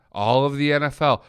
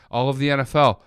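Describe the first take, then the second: No difference in how they are said.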